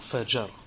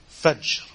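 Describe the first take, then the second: First: A vowel is heard between the final consonants. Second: No vowel is heard between the final consonants. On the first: The speaker calls it wrong. "not fajr" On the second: The speaker calls it right. "you have to have the sukoon on the middle letter"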